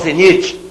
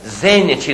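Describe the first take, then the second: First: The stress falls later than the third-to-last syllable. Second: The stress is on the third-to-last syllable. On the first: The speaker calls it wrong. "não zenite" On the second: The speaker calls it right. "palavra técnica"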